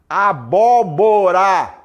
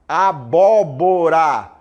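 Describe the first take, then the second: The two takes are said the same way.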